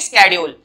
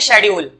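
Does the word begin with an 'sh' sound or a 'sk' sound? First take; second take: sk; sh. First: The word begins with an 'sk' sound. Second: The word begins with an 'sh' sound. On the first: "इसकी जो सही pronunciation होती है वो होती है स्केड्यूल" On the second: "इसको शेड्यूल बोलते हैं कुछ लोग"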